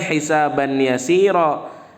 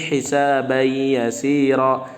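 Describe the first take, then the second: First: The n sound is pronounced clearly before y. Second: The n sound merges into the following y. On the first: The speaker calls it wrong. "bukan hisaban yasira" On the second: The speaker calls it right. "tapi hisabai yasira"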